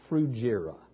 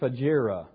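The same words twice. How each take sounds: First: The first syllable sounds like the start of 'frugal'. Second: The first syllable does not sound like 'frugal'. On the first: The speaker calls it right. "think of it as frugal, Phrygia. Phrygia is the pronunciation" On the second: The speaker calls it wrong. "I've always called it Phrygia, but actually"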